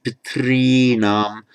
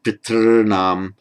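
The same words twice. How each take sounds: First: Pitrinam with a long "ree" in the middle; variant with "ree". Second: Piternam with a held "rr" in the middle, no "ee"; variant with syllabic R. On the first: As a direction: stretch "pitrinam" as pit-REE-naam. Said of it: "Some people will pronounce it". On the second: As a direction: stretch "piternam" as pit-RRR-naam. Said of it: "Some will pronounce it". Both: Shown as a demonstration.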